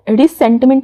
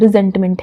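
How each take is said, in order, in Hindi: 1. बीच का व्यंजन एक फुफकारती s ध्वनि है। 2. बीच का व्यंजन एक भनभनाती z ध्वनि है। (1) "रिसेंटमेंट नहीं" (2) "इसे प्रोनाउंस करना है, रिजेंटमेंट है"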